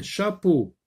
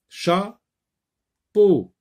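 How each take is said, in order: First: Said in the usual way. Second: "Chapeau" as cha, long pause, peau; higher, louder "Chapeau" in two stretched beats; split into syllables. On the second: Shown as a demonstration. Teacher sounding out syllables for pupils, "Chapeau" pulled apart. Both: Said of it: "Dans la première syllabe ou dans la deuxième syllabe".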